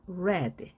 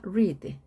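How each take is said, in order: First: "read" with a short e, like "red"; "read" rhyming with "bed"; past-tense read. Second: "read" with a long ee, like "reed"; "read" rhyming with "need"; present-tense read. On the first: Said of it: "발음이 달라집니다". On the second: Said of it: "철자는 같은데 발음이 달라집니다". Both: Shown as a demonstration.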